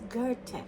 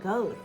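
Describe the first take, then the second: First: The name is said with a German pronunciation. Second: The name is said with an English pronunciation. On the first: The speaker calls it right. "But in German, it's Goethe" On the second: The speaker calls it wrong. "we often pronounce it Goethe"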